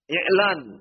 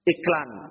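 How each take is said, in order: First: The word is said without a k sound. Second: The word is said with a k sound. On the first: This is the original Arabic form. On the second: This is the Indonesian adapted form. "Iklan jadi iklan tambah ka"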